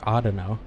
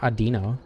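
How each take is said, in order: First: The name starts with an 'aw' sound. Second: The name starts with a short 'ah' sound. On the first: The speaker calls it right. "I'm saying Audino" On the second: The speaker calls it wrong. "It's not Adino. I've never heard anyone pronounce it Adino"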